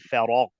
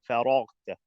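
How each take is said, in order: First: The word is said at normal speed. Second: The word is said very slowly.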